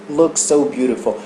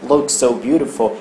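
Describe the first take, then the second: Both takes have the same delivery.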